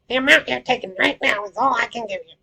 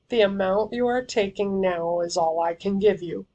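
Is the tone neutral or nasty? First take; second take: nasty; neutral. First: It is said in a nasty, mean tone. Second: It is read in a plain, neutral tone.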